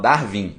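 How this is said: It is said with Portuguese sounds, like Dar-vin. "que a gente fala Darwin"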